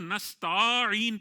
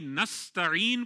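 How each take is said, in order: First: The vowel after the s is long. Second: The vowel after the s is short. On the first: The speaker calls it wrong. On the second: The speaker calls it right.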